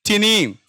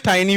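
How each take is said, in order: First: "टिनी" with an "ee" sound, TEE-nee; short-i variant. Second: "टाइनी" with an "eye" vowel, TAI-nee; long-i variant. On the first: Teacher giving students one variant, "टिनी" said TEE-nee. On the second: Teacher offering the other variant, "टाइनी" said TAI-nee. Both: Shown as a demonstration. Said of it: "टाइनी भी बोल देते हैं".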